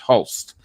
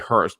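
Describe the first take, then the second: First: The name is said with an L sound. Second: The name is said with an R sound. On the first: The speaker calls it right. "It's Hulst" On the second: The speaker calls it wrong. "I know I'm, I'm mispronouncing it"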